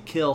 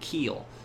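First: The vowel is short, as in standard speech. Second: The vowel is long, in a Southern accent.

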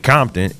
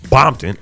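First: The word begins with a K sound. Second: The word begins with a B sound. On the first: It is the ordinary way to say it. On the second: It signals affiliation with the bloods.

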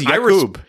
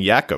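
First: The stress is on the second syllable. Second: The stress is on the first syllable. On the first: The speaker calls it right. "Is there actually an emphasis on the oob? Yeah, he says Jakub" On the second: The speaker calls it wrong. "you were just saying Jakub, and that's not how you say it"

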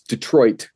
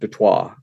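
First: Detroit is said with an English pronunciation. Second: Detroit is said with a French pronunciation. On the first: The speaker calls it right. "French spelled and English pronounced. That's why it's Detroit" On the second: The speaker calls it wrong. "not Detroit"

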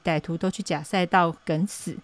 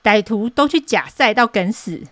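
First: It is read out flatly, without emotion. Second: It is said with strong, heated emotion.

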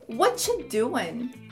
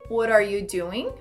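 First: 'What are you' merges into a 'whatcha' sound. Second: The T of 'what' sounds like a quick R. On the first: It is a much more informal way of saying it. "pode soar como whatcha" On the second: It is a natural native way of saying it. "Esse T do what acaba virando um R"

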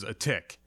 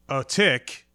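First: It is said at normal speed. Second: It is said slowly, drawn out.

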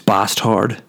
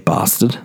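First: The word is pronounced fully and carefully. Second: The word is pronounced lazily, in reduced form. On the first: The speaker calls it right. "It's bastard. Get into it and say it with pride" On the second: The speaker calls it wrong. "I hate it when people say bastard"

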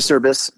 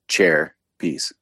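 First: The name begins without a 'ch' sound. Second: The name begins with a 'ch' sound. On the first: The speaker calls it wrong. "Not a Cerbys" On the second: The speaker calls it right. "the C is pronounced with a CH. So Cherbys"

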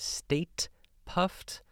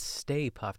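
First: The first word ends with a t sound. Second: The first word ends without a t sound. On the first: The speaker calls it wrong. "something I've been mispronouncing all my life" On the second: The speaker calls it right. "But it's Stay Puft"

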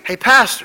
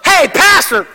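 First: It is said softly and quietly. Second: It is said loudly and forcefully. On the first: A gentle call that is easy to ignore. "God whispers in a still small voice" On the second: A drastic call demanding attention. "all of a sudden God just goes"

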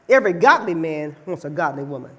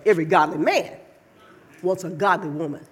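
First: It is said plainly, without extra emphasis. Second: It is said with strong, heavy emphasis.

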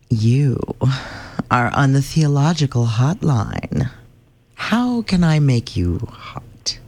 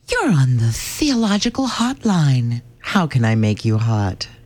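First: It is said slowly and breathily. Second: It is said at a normal pace.

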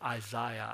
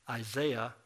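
First: It is said in a British accent. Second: It is said in the speaker's own American accent.

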